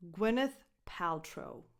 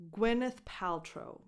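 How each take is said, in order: Both takes have the same delivery.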